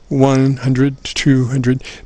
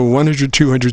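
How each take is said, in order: First: The numbers are counted slowly. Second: The numbers are counted quickly. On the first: The meter has no chance to move up. The speaker calls it wrong. "if you just go" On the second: The meter rises so the level can be seen. The speaker calls it right. "kind of speak a little bit faster"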